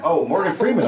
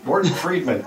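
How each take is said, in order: First: "Morgan Freeman" said correctly with a high, realizing fall; correcting yourself: "Morgan Freeman"; correct name. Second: "Morton Friedman" said as a mock mishearing, higher and falling; deliberately garbled "Morton Friedman"; misheard name. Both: Shown as a demonstration. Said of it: "I thought you said Morton Friedman".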